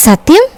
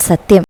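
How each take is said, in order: First: "സത്യം" pitched high, rising at the end; eager question. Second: "സത്യം" in an even, falling tone; assuring answer. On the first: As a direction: ask "സത്യം" with a high, hopeful lift. Child seeks promise from supposed father. ("സത്യം" ഉയർന്ന സ്വരത്തിൽ പ്രതീക്ഷയോടെ ചോദിക്കുന്നു) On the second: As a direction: answer "സത്യം" as a settled promise. Father answers child's question with promise. ("സത്യം" താഴുന്ന സ്വരത്തിൽ ഉറപ്പായി പറയുന്നു) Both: Acted.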